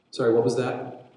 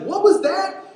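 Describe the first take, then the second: First: Said in the usual way. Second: High-pitched, loud shouted question; straining to be heard over a gale; calling over storm. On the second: Acted. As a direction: yell it as if you can't hear. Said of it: "it's so loud".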